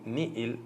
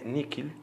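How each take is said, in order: First: The middle consonant is a soft h sound. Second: The middle consonant is a hard k sound. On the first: "con H intercalada" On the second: "otra pronunciación que tiene"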